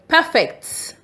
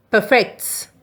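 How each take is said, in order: First: First syllable of "perfect" stressed high, PER-fect. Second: Second syllable of "perfect" stressed, per-FECT. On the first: Teacher showing learners perfect as faultless, stress on PER. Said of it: "When the stress is on P E R". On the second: Teacher showing learners perfect as improve, stress on FECT. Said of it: "When the stress is on". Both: Shown as a demonstration.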